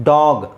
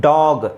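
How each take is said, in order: The two takes are said the same way.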